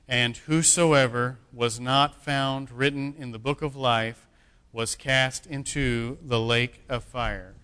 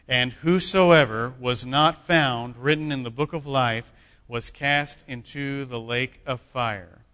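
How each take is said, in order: First: It is read at normal volume. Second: It is read louder, with conviction.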